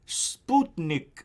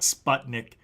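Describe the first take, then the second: First: The word is said with a Russian pronunciation. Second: The word is said with an English pronunciation. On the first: The speaker calls it right. "You have to say it like the Russians do" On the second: The speaker calls it wrong. "It's not Sputnik"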